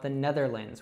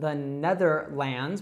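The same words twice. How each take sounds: First: The last syllable is reduced to an 'i' sound. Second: The last syllable has a full 'a' vowel.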